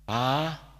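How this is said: The call is soft and gentle.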